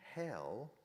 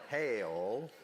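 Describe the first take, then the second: First: The word is said in a plain accent. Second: The word is drawn out in a Southern accent.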